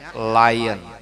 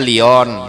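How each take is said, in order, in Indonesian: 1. Diucapkan cara Inggris, seperti "lie-on". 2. Diucapkan huruf per huruf, sesuai ejaannya. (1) "bacanya Lion" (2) "Tulisannya Lion"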